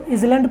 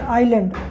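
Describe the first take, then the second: First: The word is said with a z-like s sound. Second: The word is said with no s sound. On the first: The speaker calls it wrong. "अगर हम लोग एस को silent नहीं करते तो" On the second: The speaker calls it right. "एस जो है silent भी होगा"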